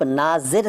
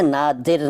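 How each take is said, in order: First: Said in the usual way. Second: नादिर, slow, with d replacing z. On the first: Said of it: "नादिर नहीं कहते". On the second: Shown as a demonstration. Teacher showing the rejected form, नादिर with d for z. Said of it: "नहीं कहते".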